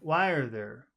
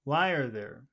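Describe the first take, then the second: Both takes have the same delivery.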